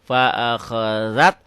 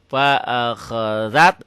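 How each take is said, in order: The two takes are said the same way.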